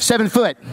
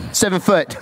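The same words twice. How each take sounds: First: 强调foot的纠正; "Seven foot" with foot hit as the fix; corrected word. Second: Said in the usual way. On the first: Shown as a demonstration. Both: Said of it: "that's not massive".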